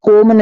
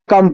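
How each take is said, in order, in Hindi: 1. स्वर लंबी 'oh' ध्वनि है। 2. स्वर छोटी 'uh' ध्वनि है। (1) "यहाँ कोम नहीं पढ़ना है" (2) "कम पढ़ना है"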